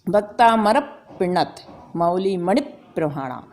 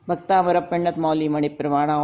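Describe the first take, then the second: First: The 'pa' sounds come with sharp forceful exhalations. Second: It is read plainly without forceful breath pushes. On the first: The speaker calls it right. "जब हमने दो बार पा को बोला तो पेट हमारा अंदर भार हुआ" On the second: The speaker calls it wrong. "Simple आपने भक्तांबर पढ़ लिया"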